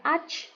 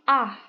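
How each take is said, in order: First: The ch sound is harsh and strong. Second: The ch sound is soft, like h. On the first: The speaker calls it wrong. "Jadi bukan ach" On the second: The speaker calls it right. "kita lebih kayak dominan H-nya"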